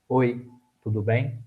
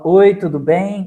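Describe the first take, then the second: First: The greeting is said flatly with little energy. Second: The greeting is said warmly with lively energy. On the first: The greeting makes little impact on listeners. The speaker calls it wrong. "falar apenas assim" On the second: The greeting makes a strong impact on listeners. The speaker calls it right. "Percebam que o meu tom de voz varia no impacto"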